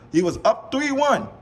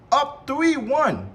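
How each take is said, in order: First: Said in the usual way. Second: Up three one, slow, higher and hammered word by word; slow emphatic repeat. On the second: Real, not acted. Host mocking KD's blown lead, repeating Up three one slowly. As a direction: drag out Up three one, hitting each word.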